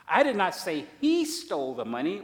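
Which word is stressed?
he. The stress is on the word he.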